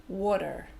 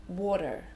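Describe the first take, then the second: No difference in how they are said.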